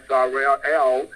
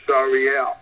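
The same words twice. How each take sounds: First: "Sorrel" said slowly, drawn out as "SAR-rel-el"; slow name. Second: "Sariel" said clearly in three syllables, "SAR-ee-el"; careful name. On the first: Preacher naming the angel, slowly drawing out "Sorrel". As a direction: stretch out "Sorrel" while searching for the name. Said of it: "Again, I say this". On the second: Preacher restating the angel's name, carefully saying "Sariel". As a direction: land "Sariel" firmly as the correct name. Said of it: "Again, I say this angel is named". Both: Shown as a demonstration.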